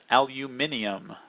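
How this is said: It is said the English way, five syllables.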